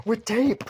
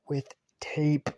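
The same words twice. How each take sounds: First: Much higher and louder, disbelieving; can you believe it, with tape; incredulous emphasis. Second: Said in the usual way. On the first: Shown as a demonstration. Telling friends about the fight, incredulous outburst.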